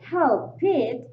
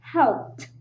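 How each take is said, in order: First: The ending is said as an extra syllable. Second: The ending is a plain t, no extra syllable. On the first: The speaker calls it wrong. "if you say help it as two syllable words" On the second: The speaker calls it right. "It is pronounced like helped"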